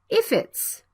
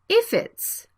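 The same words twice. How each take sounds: The two takes are said the same way.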